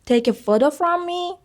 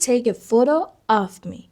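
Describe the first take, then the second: First: FROM ME pitched high as if asking; high-pitched, slow test sentence with "from me"; questioning wrong example. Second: Slow, falling tune on "of me"; deliberate teacher's model, "of me" stated as the answer; measured correct example. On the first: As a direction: offer "from me" high, like a quiz question. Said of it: "اشتباهه". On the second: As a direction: model "of me" slowly, settling down at the end. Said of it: "بعد بگید". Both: Shown as a demonstration.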